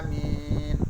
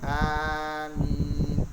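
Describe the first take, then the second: First: The first vowel leans toward e. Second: The first vowel is long, the m single. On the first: "Yang ketiga dengan imalah" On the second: "Cara bacanya panjangkan dengan manjangkan dan meringankan bacaan"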